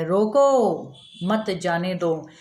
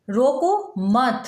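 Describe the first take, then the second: First: "रोको" stretched long and set apart, then "मत जाने दो" run together; pause after रोको. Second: "रोको मत" kept together as one command, then a break after मत; pause after मत. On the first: Teacher shows the comma moved, meaning stop them, with रोको drawn out before a pause. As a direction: draw out रोको slowly, break, then let "मत जाने दो" fall. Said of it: "अब ये comma इन "रोको" के बाद आ गया". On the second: Teacher shows the comma after मत, meaning don't stop, pausing after मत. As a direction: say "रोको मत" slowly, closing with a fall on मत. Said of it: "के बाद कॉमा दिया".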